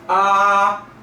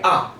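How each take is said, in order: First: The pitch stays high and level. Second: The syllable is short and light. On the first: "아를 가지고 일성을 내면은요. ... 이게 일성의 음가입니다. 그래서 일성이 되게 높아요" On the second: "경성은 그냥 가볍게 아 이렇게 처리하죠"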